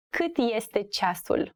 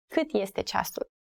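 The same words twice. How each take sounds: First: Slow, carefully spaced question; slow teaching model. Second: Said in the usual way. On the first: Shown as a demonstration. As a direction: ask it word by word for learners.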